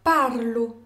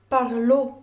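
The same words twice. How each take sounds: First: "Parlo" with PAR stressed; stress on first syllable. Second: "parlo" with final LO stressed; stress on last syllable. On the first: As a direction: hit PAR, let "lo" drop in "Parlo". (« Parlo » accentué sur PAR) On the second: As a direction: land hard on LO at the end of "parlo". (« parlo » accentué sur le LO final) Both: Shown as a demonstration. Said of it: "dépend de la place de l'accent tonique".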